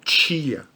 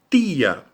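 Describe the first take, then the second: First: It starts with a ch-like t sound. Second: It starts with a plain, clean t sound. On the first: The speaker calls it wrong. "não é tia" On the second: The speaker calls it right. "o T vai ser sempre T"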